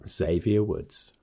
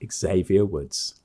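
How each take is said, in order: First: The name begins with a z sound. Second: The name begins with a ks sound. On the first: The speaker calls it right. "There we go" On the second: The speaker calls it wrong. "No X pronunciation"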